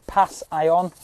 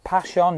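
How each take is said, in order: First: "Pass, ion" broken into "pass" and "eye-on"; split syllables. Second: Said in the usual way. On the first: Shown as a demonstration. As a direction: split "Pass, ion" into two words with a pause.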